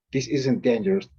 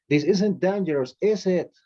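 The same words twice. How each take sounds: First: Said in the usual way. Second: "is it?" lifted high at the end; rising tag question. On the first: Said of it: "depending on the intonation". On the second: Shown as a demonstration. Teacher showing the class a rising tag "is it?". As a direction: let the tag "is it?" climb upward. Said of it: "this is gonna rise".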